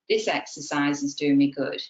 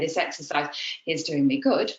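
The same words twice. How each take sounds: First: It is said smoothly without any break. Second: It is broken up with some breaths.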